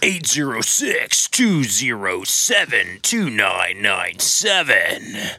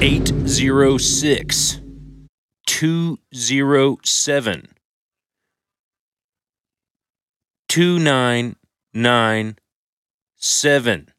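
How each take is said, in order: First: The number is said fast and rhythmically. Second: The number is said slowly and plainly.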